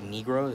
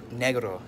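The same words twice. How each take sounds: First: It is pronounced the English way. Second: It is pronounced the Spanish way. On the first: The speaker calls it wrong. "people say like negro, is that's not how you say it" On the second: The speaker calls it right. "is how you're supposed to say it because it's in Spanish"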